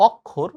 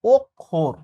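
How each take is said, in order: First: "অক্ষর" starting on open aw, ok-khor; common pronunciation. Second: "অক্ষর" starting on rounded o, ok... khor; correct pronunciation. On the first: Teacher quoting everyday speech, "অক্ষর" with an open aw at the start. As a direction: open the first vowel of "অক্ষর" to aw. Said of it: "বাস্তবে আমরা বলি". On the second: Teacher giving the right form, "অক্ষর" with closed rounded o first. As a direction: begin "অক্ষর" with a closed o, split in two. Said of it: "উচ্চারণটা হবে হচ্ছে". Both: Shown as a demonstration.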